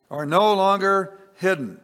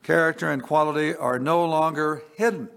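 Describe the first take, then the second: First: Higher and louder, driving "no" home; emphatic repeat. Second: Said in the usual way. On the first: Acted. Preacher repeating the verse to congregation, louder and higher. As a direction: proclaim it the second time with force.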